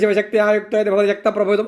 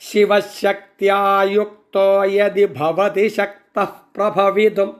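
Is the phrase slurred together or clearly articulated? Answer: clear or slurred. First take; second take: slurred; clear. First: The syllables are slurred together carelessly. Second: Every syllable is pronounced clearly and distinctly. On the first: The speaker calls it wrong. "ചുമ്മാതെ കണ്ട് ... അങ്ങനെ ചൊല്ലിപ്പോകരുത്" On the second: The speaker calls it right. "അങ്ങനെ ഓരോ അക്ഷരങ്ങൾക്കും സ്ഫുടതയുണ്ടാകണം"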